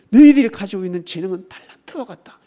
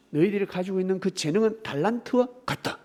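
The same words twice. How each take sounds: First: 너희들이 hit hard, the whole line much louder; preaching shout. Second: Said in the usual way. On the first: Acted. 설교자가 신도들에게 하나님 말씀을 크게 외치듯. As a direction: thunder it at the congregation. Loud repeat of God's words.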